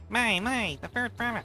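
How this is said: It is said in a squeaky voice.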